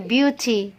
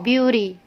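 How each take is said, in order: First: The middle consonant is a clear t sound. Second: The middle consonant sounds like a soft d. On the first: "Kalau kita gunakan British" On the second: "American language ... T-nya itu dibaca D"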